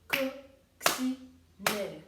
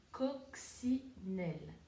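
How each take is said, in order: First: Coccinelle chanted loud and slow, one clap per syllable; clapped syllables. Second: Coccinelle said slowly, syllable by syllable; slow syllable count. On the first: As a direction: beat out each syllable of coccinelle. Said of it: "taper les syllabes avec mes mains". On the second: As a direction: spell out coccinelle in beats. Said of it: "taper les syllabes". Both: Shown as a demonstration.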